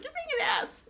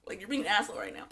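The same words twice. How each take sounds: First: Very high, squeaky imitation; high mock accusation. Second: Said in the usual way. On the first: [name] insulting her castmate, mock accusing. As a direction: scold in an exaggerated high voice.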